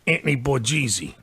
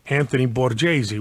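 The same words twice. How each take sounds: First: The name is said in a rough Brooklyn way. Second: The name is said in a polished, careful way. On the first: This is how the neighborhood kids said it. "They said Anthony Borghese" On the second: This is the nice, proper form of the name. "didn't say Anthony Borghese, which is nice"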